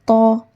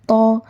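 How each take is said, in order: No difference in how they are said.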